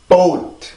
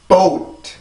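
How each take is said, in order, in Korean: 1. 영어 방식으로 발음합니다, 한 음절입니다. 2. 영어 방식으로 발음합니다, 한 음절입니다.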